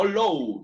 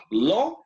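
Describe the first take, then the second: First: LOW ending in an "oh-oo" glide; wrong U glide. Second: LAW drawn on one dry open O; flat open O. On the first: Teacher shows students what to avoid, LOW with U glide. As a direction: round LOW off into a U. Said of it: "Law, no low". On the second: Teacher contrasts words for students, LAW with a flat O. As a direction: say LAW as "loh" without a U glide. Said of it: "law, como una O plana". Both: Shown as a demonstration.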